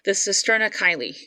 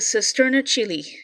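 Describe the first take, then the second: First: The second word does not sound like 'chili'. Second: The second word sounds like 'chili'. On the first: Some other people pronounce it this way. "for some other people that pronounce it differently" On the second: This is the speaker's preferred pronunciation. "I prefer chili"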